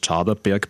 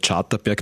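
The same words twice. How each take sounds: First: The t sound is soft and weak. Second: The t sound is hard and strong. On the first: This is the local southern variant. "im Prinzip ist es das Charterberg bei uns im Süden" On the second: This is the more refined variant. "die vornehmere Aussprachevariante ist eben der Charterberg, das HTT"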